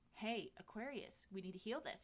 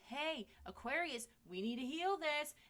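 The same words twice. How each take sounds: First: It is said somewhat louder. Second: It is said louder still.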